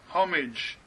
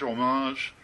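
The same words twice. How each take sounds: First: It is said in the speaker's usual Canadian way. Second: It is said the French way.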